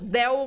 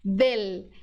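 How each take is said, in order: First: The final l sounds like a u. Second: The final l is a clear l. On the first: This is how Brazilians say it. The speaker calls it wrong. "Transforma em U" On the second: This is how it is said in Spanish. The speaker calls it right. "No espanhol, L é sempre L"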